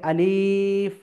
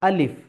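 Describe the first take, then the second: First: The vowel is drawn out and held long. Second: The vowel is short with no stretching. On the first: The speaker calls it wrong. "আমাকে আলিফ এইভাবে টেনে পড়তে হবে না" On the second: The speaker calls it right. "কোনো টান হবে না"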